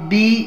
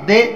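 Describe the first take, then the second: First: The vowel is a clear 'ee' sound. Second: The vowel is a mid 'ay' sound. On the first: The speaker calls it right. "मारूफ हो गया" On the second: The speaker calls it wrong. "मजहूल हो गया"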